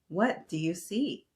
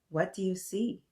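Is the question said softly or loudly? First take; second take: loudly; softly. First: It is said noticeably louder. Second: It is said at normal, softer volume.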